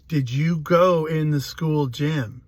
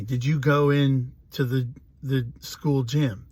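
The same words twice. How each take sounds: First: Slow, pressing police interrogator, imitated; insistent questioning. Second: Said in the usual way. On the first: Police questioning a crying little boy, insistent. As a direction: imitate an officer asking slowly and pointedly. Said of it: "they kept asking me". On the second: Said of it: "they keep asking me".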